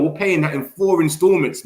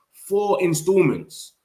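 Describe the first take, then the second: First: Said in the usual way. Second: "Four installments" slow and higher, leaning on "Four"; emphatic repeat. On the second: Real, not acted. Streamer hammering the fee point to chat, slow and emphatic.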